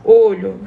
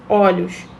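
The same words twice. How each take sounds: First: "olho" with a closed stressed o, as in "ô". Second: "olhos" with an open stressed o, as in "ó". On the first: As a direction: say "olho" keeping the first o closed and tight. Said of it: "no singular apresentam O e tônico fechado". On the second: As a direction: open the first o of "olhos" wide. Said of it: "se tornam tônicos abertos quando vão para o plural". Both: Shown as a demonstration.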